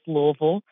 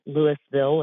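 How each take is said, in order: First: It is pronounced the way locals say it. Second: It is pronounced the way outsiders say it. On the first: The speaker is from the place. "being from Louisville, I can say it's Louisville" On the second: The speaker is not from the place. "outsiders want to call it Louisville"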